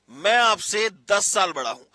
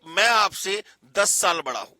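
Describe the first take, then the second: No difference in how they are said.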